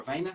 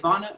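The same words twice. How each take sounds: First: "Ivana" with a long ay in the middle, VAY-na. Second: "Ivana" with an open ah in the middle; Ivana said ee-VAH-na. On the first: Host offers alternative name, "Ivana" pronounced with VAY-na. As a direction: rhyme the middle of "Ivana" with day. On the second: Host checks guest's name, "Ivana" pronounced ee-VAH-na. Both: Shown as a demonstration. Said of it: "How am I saying it right?".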